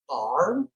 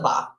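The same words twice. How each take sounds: First: The R at the end is pronounced. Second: The R at the end is dropped. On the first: The speaker calls it wrong. "That would be so weird to say bar" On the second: The speaker calls it right. "No, it's the bar"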